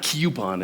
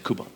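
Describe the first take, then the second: First: The first syllable sounds like 'cue'. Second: The first syllable sounds like 'coo'. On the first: The speaker calls it wrong. "So it's not coupon" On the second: The speaker calls it right. "it's coupon"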